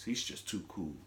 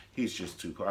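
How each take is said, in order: First: Smooth cool-guy voice; low cool voice. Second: Said in the usual way. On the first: Retold or imitated. The deep smooth voice of a cool-guy character. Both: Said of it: "He's always talking like this".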